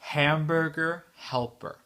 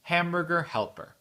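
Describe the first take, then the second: First: The phrase is said somewhat faster. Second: The phrase is said at normal, quick speed. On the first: "un peu plus vite" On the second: "très vite, mais pas très vite, mais la vitesse euh, normale"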